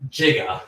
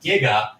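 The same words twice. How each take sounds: First: The prefix begins with a j sound. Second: The prefix begins with a hard g sound. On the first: The speaker calls it wrong. "instead of giga" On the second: The speaker calls it right. "the prefix is pronounced giga"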